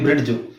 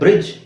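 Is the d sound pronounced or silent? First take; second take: pronounced; silent. First: The d sound is clearly pronounced. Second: The d sound is left out. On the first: The speaker calls it wrong. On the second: The speaker calls it right.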